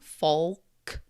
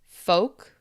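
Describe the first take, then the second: First: The word is said with an L sound. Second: The word is said without an L sound.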